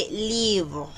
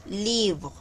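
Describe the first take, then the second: No difference in how they are said.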